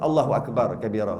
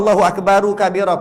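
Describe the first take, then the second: First: Akbar stops on r with no vowel. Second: Akbar gets a final vowel joined to kabira. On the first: "lagi baik" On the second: "nak baca Allahu akbaru kabira pun boleh"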